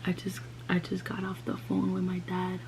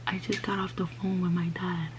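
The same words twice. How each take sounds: First: Hushed, broken whisper to mom; barely able to say it, head down. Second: Repeated, faint whisper; saying it again, head down and teary. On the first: Telling mom, head down, crying. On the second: Repeats it to mom, crying. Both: Retold or imitated.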